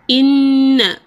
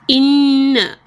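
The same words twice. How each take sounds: The two takes are said the same way.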